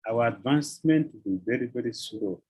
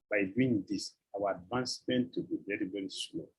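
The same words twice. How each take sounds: First: Said in the usual way. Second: Softer and lower, sinking to a whisper; fading to a hush. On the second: Shown as a demonstration. Preacher repeating his warning to devotees, fading to a hush. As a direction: let the warning die away to a breath.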